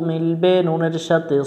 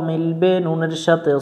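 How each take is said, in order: Both takes have the same delivery.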